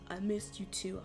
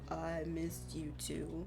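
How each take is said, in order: First: The voice is at a normal, higher pitch. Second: The voice is pushed down to a deeper pitch.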